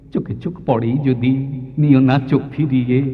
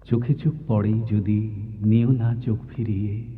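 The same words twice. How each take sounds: First: The rhythmic beats are strong and heavy. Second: The rhythmic beats are soft and gentle. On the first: It sounds like a comic, playful beat. "আমি যদি এটাকে উল্টে দিই" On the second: It sounds like a gently played sitar. "এটা ঝোঁক অনেক মৃদু"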